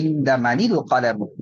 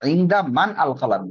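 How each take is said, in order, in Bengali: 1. একটি 'i' স্বরধ্বনি 'man' ও 'al'-কে যুক্ত করে 'manil' বানায়। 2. 'man' ও 'al' শব্দ দুটি আলাদা থাকে, কোনো সংযোগকারী স্বরধ্বনি ছাড়া। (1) "সহজের জন্য প্রথম সাকিনের নিচে কাসরা বা জের দেওয়া হয়েছে" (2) "মূলত বাক্যটা কি ছিল?"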